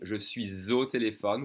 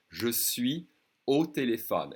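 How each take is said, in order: First: Je suis au téléphone with a Z joining suis to au; careful liaison with Z sound. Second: Je suis au téléphone without the Z; casual, suis and au kept apart; everyday spoken, no Z link; no liaison. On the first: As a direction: slowly link suis and au with a clear Z. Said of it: "with a Z sound". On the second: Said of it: "when people speak fast, they won't do it". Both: Shown as a demonstration.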